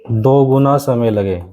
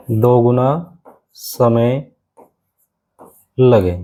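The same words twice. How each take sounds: First: Said in the usual way. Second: Very slow, drawn out for writing down; teacher dictating a note very slowly; very slow dictation. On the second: Shown as a demonstration. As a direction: stretch each word so they can copy it. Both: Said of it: "तो आप लिख सकते हो".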